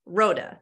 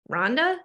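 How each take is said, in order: First: "Rhoda" said like road plus uh, ROH-duh, no n; "Rhoda" as road with an uh at the end, falling; correcting the name. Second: "Rhonda" with an n before the d, asked with a puzzled rise; "Rhonda" sounded as RON-da, a questioning rise; mishearing the name. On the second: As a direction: say "Rhonda" as a confused wrong version of the name. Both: Acted. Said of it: "like the word road with an uh at the end".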